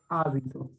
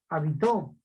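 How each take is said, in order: First: The stress is on the first syllable. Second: The stress is on the last syllable. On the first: The speaker calls it right. "Como está la tilde en la A, entonces sé que es esdrújula" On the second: The speaker calls it wrong. "ni voy a pronunciar habitó"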